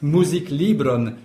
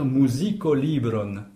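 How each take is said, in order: First: The k runs straight into the l. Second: An o vowel separates the k and l. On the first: "c'est un peu difficile à prononcer" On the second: "On a tout à fait le droit de dire musikolibron"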